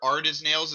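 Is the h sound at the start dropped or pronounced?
dropped. It starts without the h sound.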